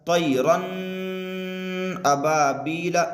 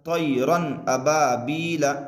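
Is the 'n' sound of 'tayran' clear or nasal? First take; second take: nasal; clear. First: The 'n' is held as a nasal hum. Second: The 'n' is clear and quick without nasal hum. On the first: The speaker calls it wrong. "इस तरीके से नहीं पढ़ेंगे। तनवीन की आवाज़ को नाक में रोकना नहीं है" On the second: The speaker calls it right. "इस तरीके से।"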